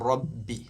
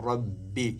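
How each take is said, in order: The two takes are said the same way.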